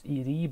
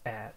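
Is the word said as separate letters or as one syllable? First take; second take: letters; one syllable. First: The word is spelled out as two letters. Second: The word is said as one syllable. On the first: The speaker calls it right. "I know it should be pronounced as ED" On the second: The speaker calls it wrong. "but I like pronouncing this as add"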